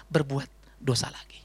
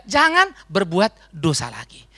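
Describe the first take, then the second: First: Slow, breathy whispered warning; hushed, slow warning whisper. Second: Slow, deliberate, every word weighed; slow solemn emphasis; slow emphatic. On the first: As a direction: lean in and whisper it like a secret. Key phrase whispered. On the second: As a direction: lay it down slowly like a rule. Key phrase repeated slow. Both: Shown as a demonstration.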